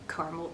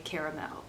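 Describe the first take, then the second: First: It is said in the plain everyday way. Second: It is said in a fancier, more elaborate way. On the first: "the regular way" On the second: "the fancy way"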